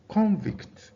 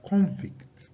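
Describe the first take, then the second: First: The stress is on the first syllable. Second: The same.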